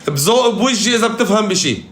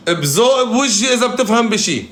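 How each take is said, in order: Both takes have the same delivery.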